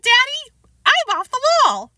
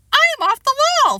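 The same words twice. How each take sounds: First: High loud proud boast; proud child. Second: Put-on high loud gleeful child repeat; proud repeat. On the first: Acted. Boy tells his father proudly, high child voice. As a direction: boast it with glee. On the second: Boy repeats his new phrase, gleeful child voice. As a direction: say it again with glee. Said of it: "Fudge repeated".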